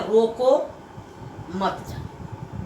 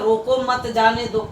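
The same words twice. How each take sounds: First: रोको held apart, then softer मत जाने दो after a gap; pause after रोको. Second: Said in the usual way. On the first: Shown as a demonstration. Teacher contrasting the two meanings, pause after रोको. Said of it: "दोनों का अंतर कितना हो रहा है". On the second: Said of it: "इसका मतलब है".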